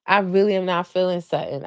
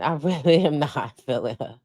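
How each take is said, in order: First: Said in the usual way. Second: Laughing repeat. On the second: Real, not acted.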